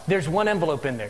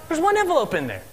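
First: Said in the usual way. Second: "one" lifted high and held, the surprise in it; stress on one. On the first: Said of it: "Do you ever have just one envelope". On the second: Shown as a demonstration. Preacher repeats the line to his congregation, stressing "one" high. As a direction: lean into "one" with a raised pitch. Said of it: "I never have just one envelope".

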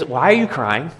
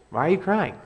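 First: Said in the usual way. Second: Higher, softer repeat of the question; gentle raised plea, asked again. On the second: Shown as a demonstration. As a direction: lift it up and let it go soft.

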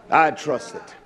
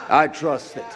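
No difference in how they are said.

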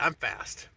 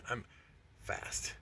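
First: Said in the usual way. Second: Breathy whisper, no voice at all; whispered brag. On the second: Shown as a demonstration. Bragging to viewers about his speed: whispered aside. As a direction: drop to a whisper to sneak in the boast.

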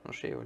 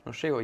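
First: Faint whispered no llego; dying whisper. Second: Said in the usual way. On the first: Retold or imitated. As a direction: whisper no llego as if fading away. Moribundo le habla al amigo. (susurro débil: no llego)

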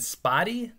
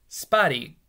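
First: "Spotty?" rising in disbelief, higher; incredulous question. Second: Said in the usual way. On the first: Retold or imitated. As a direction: repeat the strange name as if it makes no sense. Boy hears the dog called Spotty.

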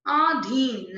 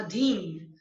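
First: अधीन said slowly as "aadheen"; wrong long vowel. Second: Said in the usual way. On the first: Shown as a demonstration. Teacher correcting a mistake, अधीन with long opening aa. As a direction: stretch the first vowel of अधीन to aa. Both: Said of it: "नहीं".

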